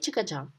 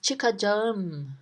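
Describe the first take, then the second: First: The word is said in a casual, reduced form. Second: The word is said in its full, careful form. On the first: This is how people say it in daily life. "in real life, we don't say çıkacağım, we say çıkacağım" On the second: This is the grammatically correct form. "grammatically, it is said as çıkacağım"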